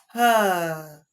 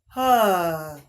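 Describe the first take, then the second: The two takes are said the same way.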